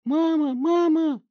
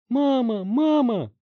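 First: Shrill, very loud squeal with a cry; squealing in terror. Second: High, loud cries for mom; screaming. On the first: Bloodied teen squealing for his mother in terror. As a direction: squeal like he's being butchered. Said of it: "он завизжал, как резаный". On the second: Bloodied teen screaming for his mother in panic. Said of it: "закричал Барри". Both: Acted.

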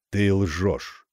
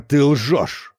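First: Ровно и холодно «ты лжёшь»; невозмутимо повтори; спокойно. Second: Громче, с ударом на «ты»; брось обвинение; гневно «ты лжёшь». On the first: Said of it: "спокойно повторила тень". (тень спокойно, без нажима) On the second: (призрак в ярости: «ты лжёшь!») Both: A narrator's reading.

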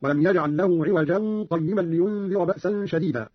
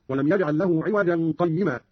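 First: Slower, عوجا run straight into قيما without a break; linked without pause. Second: Said in the usual way. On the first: Shown as a demonstration. Teacher showing Qalun's reading, no pause between عوجا and قيما. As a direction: join عوجا قيما in one breath. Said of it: "بترك السكت عندما يصل". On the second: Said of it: "قرأ قالون بترك السكت".

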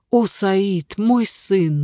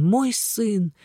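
First: A touch of tearful grief; grieving exclamation. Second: Softer, falling into weeping; fading into tears. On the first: Father mourns his lost son, with understated tears. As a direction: call the lost son's name, mildly broken. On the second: Father repeats мой сын, trailing off into tears. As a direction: let мой сын sink softly into a sob. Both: A narrator's reading. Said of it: "воскликнул несчастный отец и заплакал".

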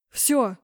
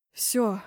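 First: Raised, louder outcry; yelling. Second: Worn-out, subdued groan; exhausted moan. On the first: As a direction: yell it out in pain. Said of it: "заорал Зейн". (громкий вопль) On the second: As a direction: moan it, utterly spent. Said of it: "простонал измученно". (измученный стон) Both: A narrator's reading.

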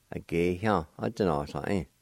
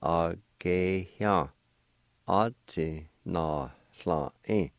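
First: Said in the usual way. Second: A gay hyang a ti na sla in, drawn out slowly; slow, careful pronunciation. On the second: Shown as a demonstration. Teacher joins the syllables slowly for learners. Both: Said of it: "And together".

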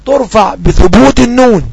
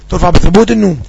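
First: Slow, leaning on النون with a falling close; slow rule recital. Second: Said in the usual way. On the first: Shown as a demonstration. Teacher reciting the rule to students, slow and deliberate. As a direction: spell out ترفع بثبوت النون slowly, stressing النون. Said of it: "قال".

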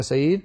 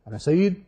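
First: Said in the usual way. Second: Slightly sharper, demonstrative name-call; a half-hearted demo of calling someone forcefully; mock forceful call. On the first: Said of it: "تو ایک اچھا کہنے کا طریقہ ہے". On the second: Shown as a demonstration. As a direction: call the name as if annoyed, only mildly. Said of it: "بہت زور سے کہا".

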